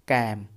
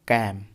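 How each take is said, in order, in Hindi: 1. स्वर खुला 'a' है, 'cam' जैसा। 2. स्वर खुला 'a' है, 'cam' जैसा।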